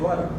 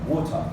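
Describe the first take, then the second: First: It is said in an American accent. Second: It is said in a British accent. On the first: "in America and the U S, they say water" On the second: "if you are in Britain, you will hear the people say water"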